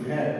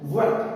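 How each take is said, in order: First: It begins with an aspirated bh sound. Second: It begins with a buzzing v sound. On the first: The speaker calls it wrong. "আমরা বলি ভ্যাট" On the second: The speaker calls it right. "Original উচ্চারণ হচ্ছে ভ্যাট"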